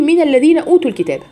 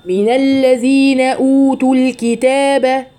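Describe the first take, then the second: First: Rushed أوتوا with the long vowels cut short; مد ناقص. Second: Slow level chant, أوتوا held long; sung, intone the verse with full natural vowel lengths; sung, ترتيل بالمد الطبيعي. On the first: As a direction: say أوتوا quickly in speech, no elongation. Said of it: "ما ينفعش أقول". (نطق أوتوا سريعًا بلا مد) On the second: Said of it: "انتبهوا حبيباتي لأوتوا". (sung, تلاوة مرتلة مع مد أوتوا) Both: Shown as a demonstration.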